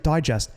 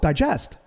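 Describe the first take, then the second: First: The stress is on the first syllable. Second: The stress is on the second syllable. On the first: "I think it's Reader's Digest" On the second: "Like a digestion"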